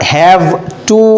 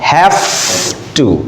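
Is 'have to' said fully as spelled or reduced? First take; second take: full; reduced. First: Both words are said fully and separately. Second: The two words blend into a reduced form. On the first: "যদিও আমরা have to লিখছি" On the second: "উচ্চারণটা কিন্তু হবে have to"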